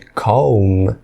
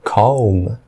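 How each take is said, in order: The two takes are said the same way.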